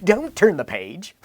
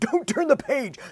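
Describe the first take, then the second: First: It sounds playful and teasing. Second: It sounds earnest and pleading. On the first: The speaker actually wants the page turned. "you read it in a different tone of voice" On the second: The speaker truly wants the page left unturned. "you get the tone like"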